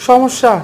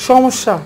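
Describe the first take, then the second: Both takes have the same delivery.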